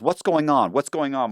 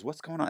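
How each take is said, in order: First: Lightly voiced, higher-pitched bewilderment; mock confusion, repeated in a higher voice; bewildered attorney. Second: Softer, higher puzzled aside; puzzled defense attorney. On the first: Retold U S attorney confused by the case, bewildered. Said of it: "the U S attorney goes". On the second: Retold or imitated. Retold attorney of the speaker, softly puzzled. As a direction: lightly imitate a quietly confused lawyer. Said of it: "My attorney goes".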